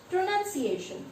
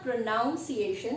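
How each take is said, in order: First: The second syllable has an 'uh' vowel. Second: The second syllable has an 'ow' vowel. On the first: The speaker calls it right. "it is pronunciation. There is no O required" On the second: The speaker calls it wrong. "It's not pronunciation"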